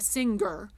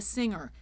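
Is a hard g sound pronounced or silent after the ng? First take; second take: pronounced; silent. First: A hard g sound follows the ng. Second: No hard g sound follows the ng. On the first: The speaker calls it wrong. "we will not make it a g. It won't be a singer" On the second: The speaker calls it right. "It'll be a singer"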